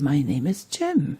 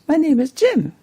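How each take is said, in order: First: It is said in a warm, friendly tone. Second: It is said in a bright, cheerful tone. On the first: The speaker welcomes the listener. "or very friendly" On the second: The speaker is in a happy mood. "or very cheerful"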